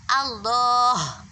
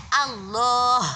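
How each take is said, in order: No difference in how they are said.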